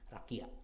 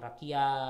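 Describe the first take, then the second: First: The final vowel is short and cut by a stop. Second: The final vowel flows on without a stop. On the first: The speaker calls it right. "dia ada tanda pemberhentian, pemberhentian dan juga dia lebih singkat bacanya" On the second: The speaker calls it wrong. "jangan rakia gitu ya"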